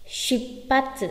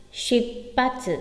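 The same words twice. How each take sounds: The two takes are said the same way.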